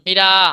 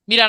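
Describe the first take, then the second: First: The final vowel is drawn out long. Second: The final vowel is short and clipped. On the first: The speaker calls it right. "একটু টান আছে জন্য আমরা বলবো মীরা" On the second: The speaker calls it wrong. "শুধু মীরা বলা যাবে না"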